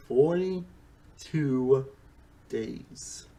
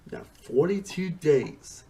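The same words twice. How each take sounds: First: Very slow "Forty-two", breathy "days"; stretched emphasis. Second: Said in the usual way. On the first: Shown as a demonstration. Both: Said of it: "repeats for emphasis".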